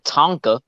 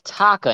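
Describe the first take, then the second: First: The name has an n sound before k. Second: The name has no n sound before k. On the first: The speaker calls it wrong. "adding an N to the name" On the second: The speaker calls it right. "It's Taka"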